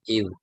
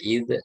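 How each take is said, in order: First: The consonant stops cleanly without any echoing release. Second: The consonant ends with a bounced, echoing release. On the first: The speaker calls it right. "tapi id" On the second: The speaker calls it wrong. "tidak kokolah ya, tidak dibaca id"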